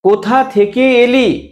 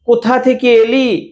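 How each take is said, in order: No difference in how they are said.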